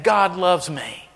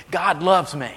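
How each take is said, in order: First: "God loves me" drawn out slowly, each word weighed; slow and deliberate. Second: "God loves me" spoken firmly, as a sure fact; said with conviction. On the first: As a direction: let the words land slowly. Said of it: "When's the last time you said that?". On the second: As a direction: say it like you truly believe it. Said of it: "like you believe it". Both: Shown as a demonstration.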